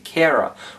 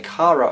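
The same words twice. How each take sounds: First: The name has an American pronunciation. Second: The name has a non-American, local pronunciation. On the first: "which is the American pronunciation" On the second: "We'd say Kara over here"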